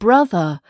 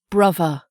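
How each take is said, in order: First: The middle consonant is a th sound. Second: The middle consonant is a v sound.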